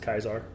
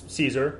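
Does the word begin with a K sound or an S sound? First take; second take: K sound; S sound. First: The word begins with a hard K sound. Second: The word begins with a soft S sound. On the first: "the traditional pronunciation is Kaiser" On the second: "It's Caesar"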